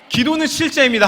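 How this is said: The voice is clear, strong and ringing. The voice has been restored. "목소리 까랑까랑하게"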